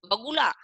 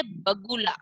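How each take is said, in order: First: "बगुला" mispronounced as vagula, questioning; "बगुला" with a mistaken va at the start; wrong व sound. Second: "बगुला" opening on a clear b; "बगुला" with lips closed for the first b; correct ब sound. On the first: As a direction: open "बगुला" on v instead of b. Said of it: "नहीं ना". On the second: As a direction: model "बगुला" slowly as bagula. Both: Shown as a demonstration.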